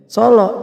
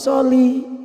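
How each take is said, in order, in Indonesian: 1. Kata ini berakhir dengan vokal 'oh'. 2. Kata ini berakhir dengan vokal 'ee'. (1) "dia nyebutnya solo ya" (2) "bukan solo tapi soli. Yang benar"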